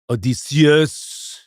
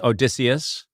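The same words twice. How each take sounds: First: The name is given its original Greek pronunciation. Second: The name is given its familiar English pronunciation. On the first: "but in the Greek, it would be" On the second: "we would know him as"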